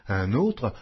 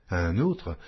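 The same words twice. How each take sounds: The two takes are said the same way.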